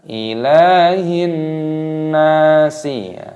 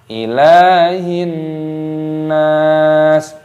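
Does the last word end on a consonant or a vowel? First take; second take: vowel; consonant. First: The last word ends with an added i vowel. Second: The last word ends on a bare s sound. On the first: The speaker calls it wrong. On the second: The speaker calls it right.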